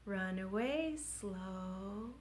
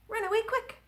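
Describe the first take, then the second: First: Very slow, softer. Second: Zip it up high; quick. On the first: Children's rhyme, slow line sung drawn-out. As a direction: drag it out. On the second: Children's rhyme, quick line sung high. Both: Shown as a demonstration.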